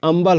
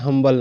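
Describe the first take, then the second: First: The word begins with a vowel, no h. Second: The word begins with an audible h sound. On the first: The speaker calls it right. "यहाँ पर अम्बल हो रहा है" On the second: The speaker calls it wrong. "हम्बल नहीं"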